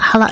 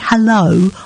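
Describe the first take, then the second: First: The word is slurred together. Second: The word is said clearly.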